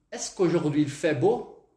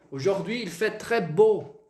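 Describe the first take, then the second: First: "Est-ce qu'aujourd'hui il fait beau" asked slowly, "beau" rising; slow French question lifting on "beau"; questioning intonation. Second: "Aujourd'hui il fait très beau" as a slow exclamation, "très" stressed; exclamatory intonation. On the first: Teacher carries the question tune into French, rising intonation. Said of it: "Vou fazer uma pergunta". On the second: Teacher repeats Portuguese exclamation in French, slow exclamatory tune. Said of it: "Ponto de exclamação". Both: Shown as a demonstration.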